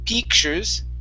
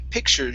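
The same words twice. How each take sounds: First: The first vowel is a long ee sound. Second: The first vowel is a short i sound. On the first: The speaker calls it wrong. "Instead of peak" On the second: The speaker calls it right. "short I sound"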